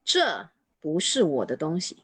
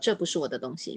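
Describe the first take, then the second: First: The first word 这 is strongly emphasized. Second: It is said normally, with no special emphasis.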